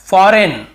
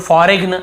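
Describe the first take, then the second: First: Said in the usual way. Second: फॉरेन misread as "fo-reg-n"; G wrongly sounded. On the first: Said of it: "फॉरेन पढ़ना है". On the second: Shown as a demonstration. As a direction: put a hard G before the final N of फॉरेन. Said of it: "ऐसे पढ़ते हैं".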